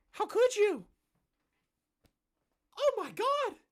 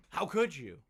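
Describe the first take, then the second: First: Very high, whiny falsetto; mock outrage. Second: Said in the usual way. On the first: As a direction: shriek it like a wounded hypocrite. Mocking the forum's outrage.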